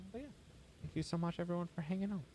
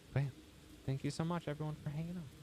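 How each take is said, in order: No difference in how they are said.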